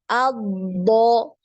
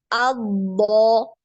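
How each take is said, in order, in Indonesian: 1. Konsonan ganda itu ditahan dengan aliran suara. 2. Konsonan ganda itu ditahan dengan aliran suara.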